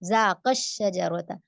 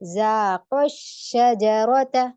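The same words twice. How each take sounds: First: The long final vowel is swallowed, not stressed. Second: The long final vowel is stressed and clearly heard. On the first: It sounds as if only one person tasted. The speaker calls it wrong. "तो यहाँ पे कैसे गलती करते हैं?" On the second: It shows that two people tasted. The speaker calls it right. "नब्र देके"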